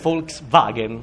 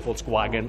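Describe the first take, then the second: First: The second part begins with a V sound. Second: The second part begins with a W sound. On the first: The speaker calls it right. "In tedesco la doppia V fa V" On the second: The speaker calls it wrong. "non dite"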